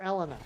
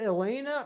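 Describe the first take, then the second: First: [name] said "ELL-uh-nuh"; short-E pronunciation. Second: [name] said "ih-LAY-nuh"; long-A pronunciation. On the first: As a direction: stress the first syllable of [name], short vowels. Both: Shown as a demonstration. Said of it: "Is it [name] or [name]?".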